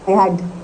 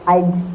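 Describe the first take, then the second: First: It is said as two full words. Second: It is said as one contracted syllable. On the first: "आई हैड आई वुड को आप आइड" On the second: "इसकी जो pronunciation है ना वो आइड जाती है"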